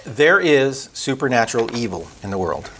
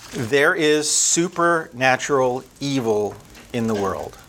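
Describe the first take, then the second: First: Said in the usual way. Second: "There is supernatural evil in the world" said slowly, each word leaned on, fading at the end; slow it down and let it sink in; measured, grave repeat fading on "the world"; slow weighty repeat. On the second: Shown as a demonstration.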